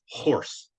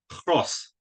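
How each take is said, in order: First: The R sound comes after the vowel. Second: The R sound comes before the vowel. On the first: This is the English-side dialect form. "the local dialect still pronounces pronounces the word horse as horse" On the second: This is the Danish or Norse-side dialect form. "So the R moved forward"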